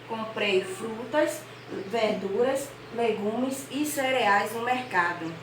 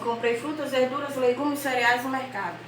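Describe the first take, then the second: First: Short pauses separate each item in the list. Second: The list is read straight through without pauses. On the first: The speaker calls it right. "nós temos que dar uma pausa na leitura" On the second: The speaker calls it wrong. "Se não tivesse o ponto, a vírgula aqui, nós estaríamos lendo assim"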